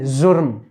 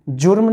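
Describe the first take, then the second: First: The word begins with a z sound. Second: The word begins with a j sound. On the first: The speaker calls it right. "जुर्म नहीं जुर्म" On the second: The speaker calls it wrong. "जुर्म नहीं"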